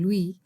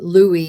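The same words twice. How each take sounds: First: The name is said with a French pronunciation. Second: The name is said with an English pronunciation. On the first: "in French, he would have been Louis" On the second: "Louis is the best uh, English approximation"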